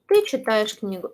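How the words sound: The pitch stays level and falls at the end. It states that the listener is reading a book. "It's just a statement. It's not a question"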